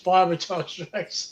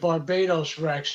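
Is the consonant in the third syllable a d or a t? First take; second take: t; d. First: The third syllable starts with a t sound. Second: The third syllable starts with a d sound. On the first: The speaker calls it right. "It's Barbados Rex" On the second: The speaker calls it wrong. "people pronounce it Barbados Rex. It's not"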